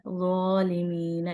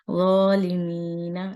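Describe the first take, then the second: First: ज़ालिमीना slow and gentle; soft repeat. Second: Slow ज़ालिमीना with rounded heavy zo; correct zo demo. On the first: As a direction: echo ज़ालिमीना softly. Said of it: "नरमी से पढ़ना है". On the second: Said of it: "इसको जालिम नहीं पढ़ना". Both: Shown as a demonstration.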